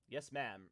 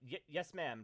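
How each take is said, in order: First: The put-on voice is pitched lower. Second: The put-on voice is pitched too high. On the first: The speaker calls it right. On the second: The speaker calls it wrong.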